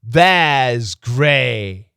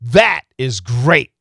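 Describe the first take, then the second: First: The final T has no stop at all. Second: The final T is cut off with a stop. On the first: It sounds like a different word. The speaker calls it wrong. "If there is no stop" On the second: The word is emphasized. The speaker calls it right. "That is the stop T"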